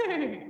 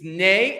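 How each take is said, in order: First: High, fluttering mock neigh; whinny the word "Neigh" like a horse. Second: Said in the usual way. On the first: Shown as a demonstration. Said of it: "neigh like a horse". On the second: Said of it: "just neigh like a horse".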